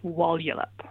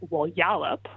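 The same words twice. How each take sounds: First: The stress falls on the first syllable. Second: The stress falls on a later syllable. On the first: The speaker calls it right. "the first syllable is the one that gets the stress" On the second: The speaker calls it wrong. "it's not something like, say"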